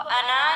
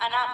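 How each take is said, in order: First: The final vowel is drawn out long. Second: The final vowel is cut short. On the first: The speaker calls it wrong. "उसको अना नहीं पढ़ेंगे" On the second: The speaker calls it right. "बल्कि सिर्फ अना पढ़ेंगे"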